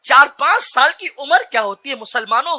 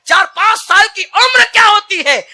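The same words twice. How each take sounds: First: Said in the usual way. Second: High, loud cry on उम्र; roaring repeat. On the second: Shown as a demonstration. Preacher asking the congregation, crying out high and loud. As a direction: hurl the question at the crowd. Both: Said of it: "repeated louder".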